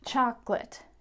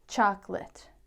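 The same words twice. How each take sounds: First: It is said with two syllables. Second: The same.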